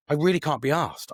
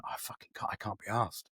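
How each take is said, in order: First: Said in the usual way. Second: A hushed, breathy whisper of giving up; barely voiced, sinking into the words; whispered despair. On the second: Whispering to himself in a dark headspace. Alone, retelling his lowest moment.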